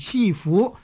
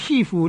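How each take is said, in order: First: The last syllable is said with a rising tone. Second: The last syllable keeps a low level tone. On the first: The speaker calls it right. "我哋叫做师父" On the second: The speaker calls it wrong. "我哋呢亦唔叫师父"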